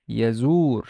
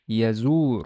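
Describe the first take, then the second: First: The word ends on the r consonant. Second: The same.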